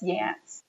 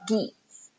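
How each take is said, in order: First: The word begins with a y sound. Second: The word begins with a hard g sound. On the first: The speaker calls it right. "It's yats" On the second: The speaker calls it wrong. "That's not how you pronounce that word"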